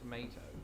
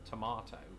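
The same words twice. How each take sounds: First: It is said with an American pronunciation. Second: It is said with a British pronunciation. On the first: "I disappointed the crap out of her by saying tomato" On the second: "to hear me say it that way"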